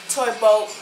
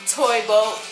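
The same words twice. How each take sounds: Both takes have the same delivery.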